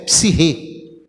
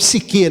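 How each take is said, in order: First: The middle consonant is a rough h sound. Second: The middle consonant is a hard k sound. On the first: This is how it is said in Greek. The speaker calls it right. "a pronúncia correta é psirre, do grego" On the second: This is how people commonly say it. The speaker calls it wrong. "Nós falamos psique"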